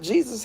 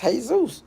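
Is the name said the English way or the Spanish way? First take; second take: English; Spanish. First: The name is said with an English pronunciation. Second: The name is said with a Spanish pronunciation. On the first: The speaker calls it wrong. "not Jesus" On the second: The speaker calls it right. "his name really is Jesus"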